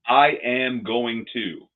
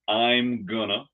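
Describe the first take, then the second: First: Every word is said fully and separately. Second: I am is contracted, then gonna follows.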